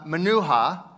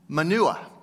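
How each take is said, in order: First: The word is stretched out with a middle 'h'. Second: The word is said short, like 'manure'.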